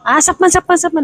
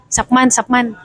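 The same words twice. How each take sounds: First: High mock market-vendor yell of "sapman"; vendor calling out. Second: Said in the usual way. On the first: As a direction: call out "sapman" like a stall seller. (pasigaw na tawag ng tindero sa palengke) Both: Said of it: "May sisigaw na ganon".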